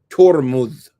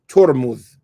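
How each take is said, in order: The two takes are said the same way.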